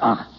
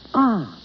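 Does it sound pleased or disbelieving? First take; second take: disbelieving; pleased. First: It sounds doubtful and disbelieving. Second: It sounds pleased and warm.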